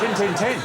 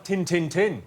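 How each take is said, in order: First: 大声喊约克郡口音; Yorkshire accent "Tin, tin, tin" called out loud, rising at the end; louder Yorkshire shout. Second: 模仿约克郡口音; Yorkshire accent "Tin, tin, tin" said flat and clipped; mock Yorkshire. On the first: Retold or imitated. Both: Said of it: "They say things like".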